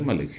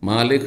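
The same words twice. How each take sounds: First: The first vowel is kept short. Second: The first vowel is drawn out long. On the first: It is read without the standing vowel mark. "আর না হলে" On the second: It is read with the standing vowel mark. "খাড়া জাবার ওর উপরে দিলে, দিয়ে পড়লে"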